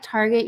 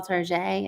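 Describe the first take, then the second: First: Said in the usual way. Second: "Target" said as tar-ZHAY; mock-French pronunciation. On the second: Shown as a demonstration. Explaining a pet name to viewers, "Target" as tar-ZHAY. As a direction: say "Target" French-style, with soft zh and ay ending. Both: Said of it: "You call Target".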